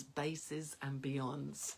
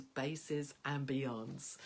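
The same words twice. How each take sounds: First: Slowly, deliberately drawn out; slow recital. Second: Slowly, deliberately drawn out, rising at the end; slow recital. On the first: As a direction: savor each word like a mantra. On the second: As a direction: let it float up like a spell. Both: Shown as a demonstration. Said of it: "I said it out loud like this".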